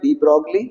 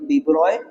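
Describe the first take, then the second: First: The name ends 'brogly' with a g sound. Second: The name ends 'broy' with no g sound. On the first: "या हम जैसे पढ़ रहे हैं डी ब्रॉगली" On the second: "NCERT के according डी ब्रॉय"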